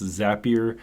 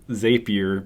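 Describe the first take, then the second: First: The word does not rhyme with rapier. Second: The word rhymes with rapier. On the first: This is the official pronunciation. The speaker calls it right. "It's actually pronounced Zapier according to their Twitter" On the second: This is how the spelling suggests it is said. The speaker calls it wrong. "it looks like Zapier because it's similar to the word rapier"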